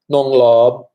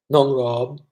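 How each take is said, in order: First: "Nong Lob" said the Thai way, with an L sound for the R and a stronger push; Thai pronunciation. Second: Said in the usual way. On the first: Shown as a demonstration. Host showing how Thais call him younger brother, in Thai style. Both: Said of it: "You wanna hear nong".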